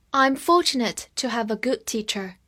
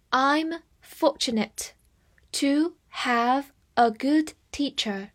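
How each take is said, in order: First: Said in the usual way. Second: Slow, word by word, with pauses between; slow read-aloud. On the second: Shown as a demonstration. Teacher models the example sentence for learners, slow reading. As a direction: read it slowly for learners to follow. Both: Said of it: "我们慢慢来读".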